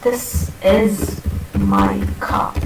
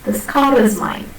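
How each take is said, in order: First: Slow "this is my car", the r of "car" dropped before the stop; sentence-final car; r-less car. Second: "car" with its r linked into "is"; linking r. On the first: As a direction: end on "car" without the r, slowly. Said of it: "There is a difference in the pronunciation". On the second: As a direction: join the r of "car" to "is". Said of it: "How do you pronounce it?". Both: Shown as a demonstration.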